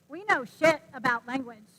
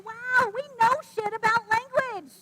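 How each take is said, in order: First: It sounds dismissive, as if we know nothing. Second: It sounds impressed, as if we know much.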